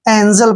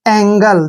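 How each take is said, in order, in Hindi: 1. बीच का व्यंजन नरम j ध्वनि है। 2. बीच का व्यंजन कठोर g ध्वनि है। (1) "इसको हम एंजल पढ़ते हैं, जो कि गलत है" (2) "जी को ग पढ़ना है"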